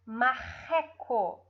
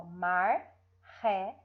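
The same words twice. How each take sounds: First: Said in the usual way. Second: "marreco" as mar... re... co, slowly; "marreco" in slow, separate syllables; split into syllables. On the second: Shown as a demonstration. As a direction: break "marreco" between the two Rs, pausing after each syllable. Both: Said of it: "Toda vez que você for separar em sílabas".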